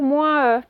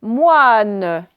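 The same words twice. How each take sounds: First: Moins E said as moins plus a separate e; wrong reading. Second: Moine said slowly with a clear final n; right reading. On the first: Teacher warning pupils against reading moins E. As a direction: read it wrongly as moins then e. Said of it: "On va pas dire". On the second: Teacher modelling moine slowly for the class. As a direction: draw out moine, sounding the n. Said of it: "ça va casser en deux syllabes". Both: Shown as a demonstration.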